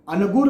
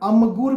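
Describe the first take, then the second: First: The nasal before the g is a plain n. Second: The nasal before the g is a plain m. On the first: "न का उच्चारण किया" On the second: "म का उच्चारण किया"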